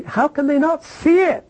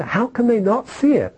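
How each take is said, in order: First: Much higher, pleading question; exasperated cry. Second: Exasperated question. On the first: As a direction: throw it up in disbelief. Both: Real, not acted.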